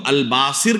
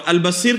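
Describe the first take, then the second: First: الباصر with long aa and short i, al-Baasir; al-BAA-sir, weight up front; altered form. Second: البصیر with short a and long ee, al-Baseer; al-ba-SEER; correct form. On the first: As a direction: lengthen the first vowel of الباصر. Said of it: "نام کے اندر تحریف ہے". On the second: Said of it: "جس تلفظ کے ساتھ". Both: Shown as a demonstration.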